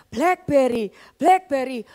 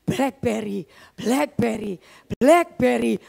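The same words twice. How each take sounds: First: Blackberry, Blackberry chanted louder and more urgently; louder heart chant. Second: Low, insistent chant of Blackberry, Blackberry, Blackberry, in time with the heartbeat; heart's inner voice. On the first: She insists to the congregation it really happened, louder chant. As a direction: push the heartbeat chant harder. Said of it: "Serius loh, saudara, itu saya ngalamin". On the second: Her racing heart keeps chanting the phone's name, low and rhythmic. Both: Retold or imitated.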